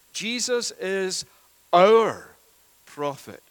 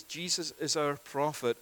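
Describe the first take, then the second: First: Slow, with pauses, "our" hit much louder; stress on our. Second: Said in the usual way. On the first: Shown as a demonstration. Preacher driving home to the congregation that he is "our" prophet, with heavy stress. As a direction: dwell on each word and punch "our". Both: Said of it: "put the emphasis and the weight on the word "our".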